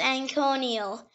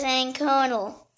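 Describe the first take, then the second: First: Anconial in four syllables, an-KOH-nee-ul; alternative pronunciation. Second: Anconal in three syllables, an-KOH-nul; first pronunciation. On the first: Word lesson giving the other form, four-syllable pronunciation. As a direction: say anconial with an extra ee before the l. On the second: Word lesson giving the main form, three-syllable pronunciation. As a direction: say anconal with no ee before the final l. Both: Shown as a demonstration. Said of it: "It can also be pronounced".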